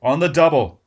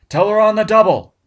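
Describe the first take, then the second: First: Loud barked command; shouted order. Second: Much louder and higher, full yell; shouted order, louder. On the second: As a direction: yell it at the top of the lungs. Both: Acted. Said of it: "Barnes shouted".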